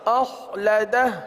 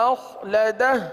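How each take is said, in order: Both takes have the same delivery.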